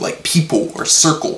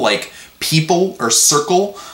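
First: The final L sounds like a W. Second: The words end with a clear L sound. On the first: "I'll say it like it ends in a W" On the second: "when a word ends in L"

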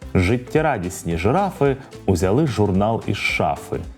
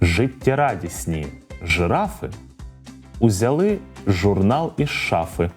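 First: The sentence is said at a medium pace. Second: The sentence is said at a slow pace. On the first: "А тепер давайте трохи швидше" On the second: "Повторюйте за мною спочатку повільно"

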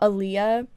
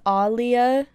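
First: The first vowel is short and clipped. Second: The first vowel is drawn out long. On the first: This is not how the name's owner says it. The speaker calls it wrong. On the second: This is how the name's owner says it. The speaker calls it right. "she pronounces her name as [name]"

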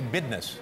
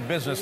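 First: The middle consonant is a d sound. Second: The middle consonant is a z sound. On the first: This is the street way. "they say bidness" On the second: This is the standard way. "They don't say business"

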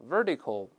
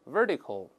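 No difference in how they are said.

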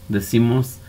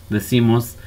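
The two takes are said the same way.

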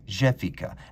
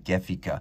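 First: The first G is a soft French sound. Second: The first G is a hard German sound. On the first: "I'm pronouncing it with a soft French G" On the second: "rather than the German Gefica"

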